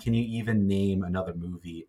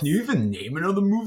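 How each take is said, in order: First: It is read in a plain, neutral tone. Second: It is read in a mocking, sarcastic tone. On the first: "I'm going to read it like just normally" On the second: "in the tone that I think it's supposed to be"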